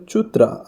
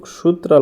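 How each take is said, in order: First: "চুত্রা" with a ch at the start, not s; correct pronunciation. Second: "সূত্রা" with an s at the start; read as written. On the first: Teacher correcting the written word, "চুত্রা" with ch. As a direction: say "চুত্রা" opening on ch. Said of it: "উচ্চারণ হবে চুত্রা". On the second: Teacher reading the written word, "সূত্রা" with s. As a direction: say "সূত্রা" opening on s, as spelled. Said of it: "এখানে কিন্তু সূত্রা লেখা আছে". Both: Shown as a demonstration.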